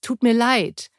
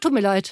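First: The apology sounds heartfelt and sincere. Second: The apology sounds offhand and dismissive. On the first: The regret is truly felt. The speaker calls it right. "Also wirklich auch fühlen" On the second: The regret is not really felt. The speaker calls it wrong. "denn nicht so"

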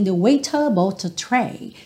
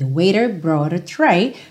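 First: The T sounds are crisp, typically British. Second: The words are linked with softened T sounds.

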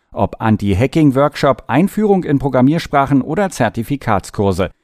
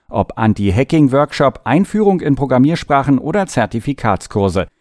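The two takes are said the same way.

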